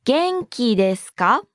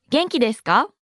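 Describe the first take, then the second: First: 元気ですか spaced out slowly, rising at the end; slow, rising intonation. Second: 元気ですか at natural speed, rising on か; rising intonation. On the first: Teacher models the formal question to learners, slow and rising. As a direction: say 元気ですか beat by beat, lifting the final か. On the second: Teacher models the formal question at natural pace, rising. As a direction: say 元気ですか smoothly with a lifted final か. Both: Shown as a demonstration. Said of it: "Note the rising intonation".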